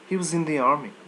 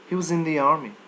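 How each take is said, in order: First: The word was is swallowed and reduced. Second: The word was is swallowed and reduced.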